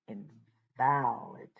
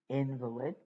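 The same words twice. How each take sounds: First: The stress is on the second syllable. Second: The stress is on the first syllable. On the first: "emphasizing the middle of that word" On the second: "emphasizing the first two letters of that word"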